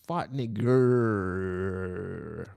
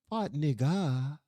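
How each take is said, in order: First: The second word ends with a hard R. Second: The second word ends in a soft vowel. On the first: "with the hard E R" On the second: "It wasn't like"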